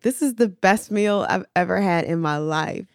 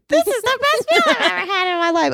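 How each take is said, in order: First: It is said in a normal voice. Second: It is said in a high, squeaky voice.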